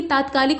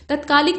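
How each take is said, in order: First: तात्कालिक with long first aa; correct form. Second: तत्कालिक with short first a; wrong form. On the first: Teacher correcting it, तात्कालिक with long first vowel. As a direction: say तात्कालिक as "taatkaalik". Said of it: "बल्कि तात्कालिक होता है". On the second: Teacher showing the mistake, तत्कालिक with short first vowel. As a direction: say तत्कालिक as "tatkaalik". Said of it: "नहीं बल्कि". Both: Shown as a demonstration.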